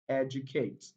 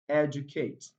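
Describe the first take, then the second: Both takes have the same delivery.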